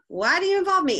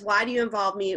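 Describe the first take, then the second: First: It sounds harsh and disrespectful. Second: It sounds gentle and respectful. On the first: The speaker is rebuking his mother. The speaker calls it wrong. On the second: The speaker is asking his mother respectfully. The speaker calls it right.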